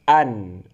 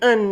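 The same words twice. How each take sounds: First: It begins with a tight throaty 'ain sound. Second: It begins with a light glottal stop. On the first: The speaker calls it right. "akan tapi an" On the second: The speaker calls it wrong. "bukan an dibaca"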